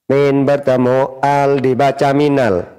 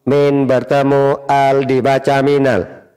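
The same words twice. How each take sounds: The two takes are said the same way.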